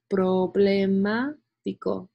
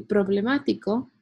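First: "problemático" slowly split as proble-má-tico; "problemático" drawn out to show "problema" inside; broken into parts. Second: Said in the usual way. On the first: Shown as a demonstration. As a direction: stretch out "problemático" part by part, slowly. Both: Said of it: "suena como problema".

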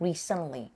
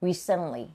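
First: Recently said clearly with stress on the first syllable, re-cent-ly; model pronunciation. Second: Recently said again clearly, stress on RE; model pronunciation repeated. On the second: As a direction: repeat recently so students copy it. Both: Shown as a demonstration. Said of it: "ออกเสียงเร็ว recently".

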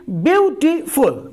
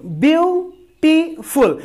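First: Said in the usual way. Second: beautiful said slowly, syllable by syllable, pitched up; split into syllables. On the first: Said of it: "beautiful को अगर मुझे break करना है". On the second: Shown as a demonstration. Teacher demonstrating syllable division to students, slow and higher. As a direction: break beautiful into its beats, slow and high. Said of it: "syllable division इसको कहते हैं".

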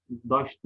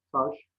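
First: "Daş" opening on a voiced d; d in place of t in "Daş"; misspelt form. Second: Said in the usual way. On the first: Shown as a demonstration. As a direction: say taş as "Daş". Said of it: "hatalı yazılan sözcüklerin". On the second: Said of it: "doğru yazılışlarını".

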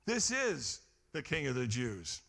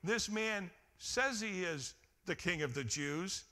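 First: "is" stressed firmly, falling to a close; preacher stressing "is" to declare the truth. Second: "says" leaned on with a rising tune; stress on says. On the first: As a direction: land hard on "is" as plain fact. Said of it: "It said". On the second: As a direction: hit "says" to show the sign didn't claim that. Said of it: "Notice the sign didn't say". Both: Shown as a demonstration.

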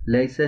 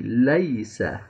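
First: लैसा with flat "e" as in Urdu; लैसा read "lesa", majhool vowel; wrong reading. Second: लैसा with clear "ai" diphthong; correct reading. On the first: Teacher shows students the mistaken "lesa". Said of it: "लैसा नहीं". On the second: Teacher gives students the right "laisa". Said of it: "वाज़े करके पढ़ेंगे". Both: Shown as a demonstration.

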